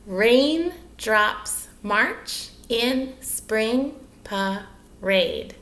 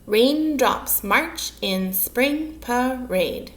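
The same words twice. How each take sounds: First: "Raindrops march in spring parade" split into seven slow, separate beats; syllable counting. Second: "Raindrops march in spring parade" slowly, word by word; measured syllables. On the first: Teacher counting syllables with children, "Raindrops march in spring parade" one syllable at a time. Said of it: "Should we count those?". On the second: Teacher presenting the line to children, "Raindrops march in spring parade" slow and measured. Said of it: "should have seven syllables". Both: Shown as a demonstration.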